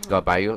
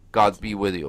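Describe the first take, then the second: First: The words run together quickly into three syllables. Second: Each word is said fully and separately.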